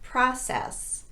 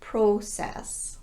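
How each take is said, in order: First: The first vowel is an unrounded ah. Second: The first vowel is a rounded O. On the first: The speaker calls it right. "That's the unrounded ah sound" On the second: The speaker calls it wrong.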